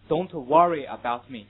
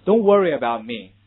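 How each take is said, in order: First: British "Don't worry about me" with an open vowel in worry; British English. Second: Loud American "Don't worry about me", r-coloured schwa in worry; American English. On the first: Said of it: "这是英国人的读法". (英式发音读worry) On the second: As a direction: model American "worry" loudly for students. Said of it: "这是美式读法". (美式发音大声读worry) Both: Shown as a demonstration.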